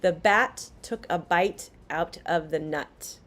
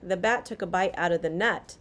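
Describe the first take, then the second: First: Each final T is clearly pronounced. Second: The final T sounds fall away. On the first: "So first we have" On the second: "the T kind of falls away"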